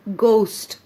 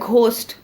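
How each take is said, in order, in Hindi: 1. इसकी शुरुआत सादी, अल्पप्राण "ग" ध्वनि से होती है। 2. इसकी शुरुआत साँस वाली महाप्राण "ग" ध्वनि से होती है। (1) "इसका कॉन्सोनेंट साउंड है ग" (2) "काफी लोग बोलते हैं घोस्ट, तो ये घ साउंड नहीं है"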